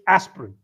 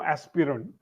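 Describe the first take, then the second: First: The middle vowel is dropped entirely. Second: The middle vowel is clearly pronounced. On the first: The speaker calls it right. "you don't have to say the I at all. So it's aspirin" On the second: The speaker calls it wrong. "there is no aspirin"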